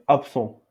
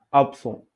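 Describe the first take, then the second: No difference in how they are said.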